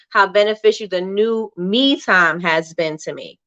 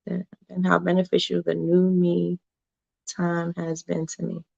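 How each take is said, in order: First: "me time" joined as one phrase; corrected phrasing. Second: Soft, puzzled reading with a break after "new me"; misread phrasing. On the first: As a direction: reread it with "me time" as a single unit. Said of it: "Okay, so I read it wrong". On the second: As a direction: read quietly to yourself, pausing between "me" and "time". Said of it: "I read it wrong". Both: Real, not acted.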